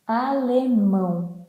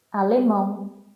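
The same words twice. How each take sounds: First: "Alemão" drawn out, with the final "ão" nasal; nasal sound. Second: Said in the usual way. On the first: Shown as a demonstration. Teacher shows learners the nasal sound in "Alemão", nasal and drawn out. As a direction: stretch "Alemão" slowly into a nasal ending. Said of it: "Here we have a nasal sound".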